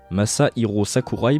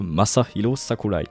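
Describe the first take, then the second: First: The name is said with French sounds and stress. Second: The name is said with Japanese sounds and rhythm. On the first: The speaker calls it wrong. "on a tendance à franciser les noms" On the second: The speaker calls it right. "pour parler de"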